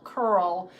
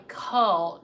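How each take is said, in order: First: "curl" with the R curled, American style. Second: Said in the usual way. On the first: Shown as a demonstration. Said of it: "that American curl mixed with an English". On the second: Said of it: "I curl some of my accent".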